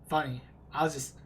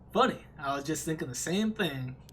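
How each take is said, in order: First: It is said in his normal voice. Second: It is said in a country accent.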